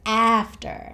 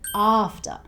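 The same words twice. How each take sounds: First: It is said in an American accent. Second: It is said in a non-American accent. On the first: The speaker calls it wrong. "We don't say after like the Americans" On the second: The speaker calls it right. "we say after"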